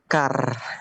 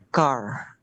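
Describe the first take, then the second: First: It is said with an Indonesian-style R. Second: It is said with a curled English-style R.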